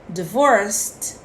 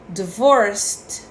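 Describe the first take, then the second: Both takes have the same delivery.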